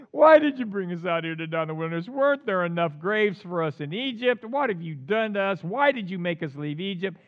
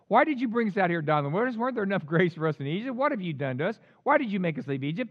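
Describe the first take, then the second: First: Acted wailing complaint, loud at the start; crying out. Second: Fast run of protesting questions; quick, lightly acted people's complaint; rapid complaint. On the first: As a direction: open on a loud cry, then keep complaining. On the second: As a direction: rattle off the grievances. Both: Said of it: "they cried out to the Lord".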